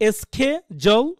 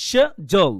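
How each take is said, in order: First: "এস খে জল" broken up, with SK and J; pronunciation demonstration. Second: "স জল" broken up, with SH and J; pronunciation demonstration. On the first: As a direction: sound out "এস খে জল" as skeh-jool. ("এস খে জল", স্ক দিয়ে ভেঙে উচ্চারণ) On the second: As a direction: sound out "স জল" as sheh-jool. ("স জল", শ দিয়ে ভেঙে উচ্চারণ) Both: Shown as a demonstration. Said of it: "উচ্চারণ করার সময় কি করবেন?".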